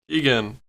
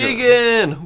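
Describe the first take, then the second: First: The name is said flatly, without excitement. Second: The name is said with loud excitement.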